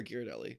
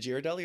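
First: "Ghirardelli" with a hard G at the start; hard-G pronunciation. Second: "Ghirardelli" with a soft J sound at the start; soft-G pronunciation. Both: Shown as a demonstration. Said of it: "is it Ghirardelli or Ghirardelli".

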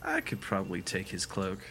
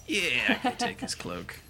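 First: Said in the usual way. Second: Much higher, eager realization; high character voice. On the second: Acted. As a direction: perk up, pitch jumps up. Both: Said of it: "She's like".

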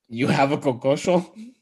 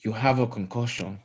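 First: A bad Nigerian accent on You have a concussion?, ending on a rise; deliberately bad Nigerian accent, played for laughs; Nigerian accent impression. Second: A deliberately bad Nigerian accent on You have a concussion; lightly put-on Nigerian accent, half-hearted; Nigerian accent impression. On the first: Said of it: "don't actually try to do a good Nigerian accent". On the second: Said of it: "Do the impression". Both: Shown as a demonstration.

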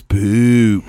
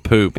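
First: "poop" with a long, stretched-out vowel, louder; mocked accent on "poop". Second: Said in the usual way. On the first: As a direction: mimic their teasing, drawing "poop" way out. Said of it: "See, he says poop". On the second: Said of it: "Hey, hey, say poop".

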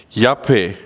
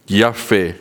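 First: Yapeh said slowly as yah-peh with a breathy h; careful Hebrew yapeh, stress on the first syllable; Hebrew word yapeh. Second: Yahweh said as yah-feh, falling at the end; simplified Yahweh, two easy syllables; easier pronunciation. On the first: To the congregation, teaching the Hebrew word yapeh carefully. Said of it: "The Hebrew word fair ... means". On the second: To listeners, offering an easier way to say Yahweh. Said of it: "easier way to pronounce it". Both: Shown as a demonstration.

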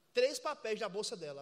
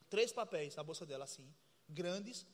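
First: Said in the usual way. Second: Slow, low, dramatic. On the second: Shown as a demonstration. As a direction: drop the voice low and drag it out slowly. (devagar, grave e dramático) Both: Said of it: "Veja, imagine".

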